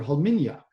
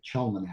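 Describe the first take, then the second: First: The name begins with a breathy 'h' sound. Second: The name is said with a shorter 'nac' ending. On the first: This is how a native speaker says it. The speaker calls it right. "which is actually the way that you say it" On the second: A smaller part of the family says it this way. The speaker calls it wrong. "of which I'm a part, now pronounces it Chelmanac"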